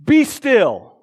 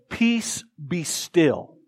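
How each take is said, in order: First: Loud, high wizard's command; Harry Potter. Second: Calm command. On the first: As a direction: cast it like a spell, mock-grand. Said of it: "in my best Harry Potter voice". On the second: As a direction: imitate Jesus stilling a storm. Jesus calmly commands the storm. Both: Retold or imitated.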